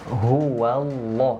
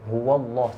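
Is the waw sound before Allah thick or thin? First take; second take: thin; thick. First: The waw sound is thin and light. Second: The waw sound is thick and heavy. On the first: The speaker calls it right. "yang tebal ini kan lafal Allahnya" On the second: The speaker calls it wrong. "Biasanya gini"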